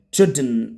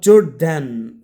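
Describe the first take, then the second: First: "Jordan" ending in a bare n, JOR-dn; correct pronunciation. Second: "Jordan" with a full, loud "DAN" at the end; wrong pronunciation. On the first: Teacher gives the right form, "Jordan" as JOR-dn. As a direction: go straight from d to n in "Jordan". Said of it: "So the pronounce is Jordan". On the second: Teacher shows what not to say, "Jordan" as jor-DAN. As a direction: open the second vowel of "Jordan", jor-DAN. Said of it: "That's wrong". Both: Shown as a demonstration.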